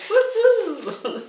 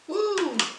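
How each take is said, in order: First: The cheer sounds lively and enthusiastic. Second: The cheer sounds flat and unexcited.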